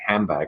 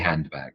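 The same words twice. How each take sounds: First: An n sound comes before the b. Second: A clear d sound comes before the b. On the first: The speaker calls it right. "the n" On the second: The speaker calls it wrong. "I say de, I say handbag"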